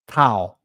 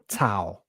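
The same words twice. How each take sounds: First: It begins with a soft th sound. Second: It begins with a hard t sound. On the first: "the t can be a th" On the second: "or a t"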